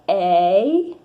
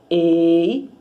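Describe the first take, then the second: First: The first vowel of the diphthong is open. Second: The first vowel of the diphthong is closed. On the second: "O fechado é como?"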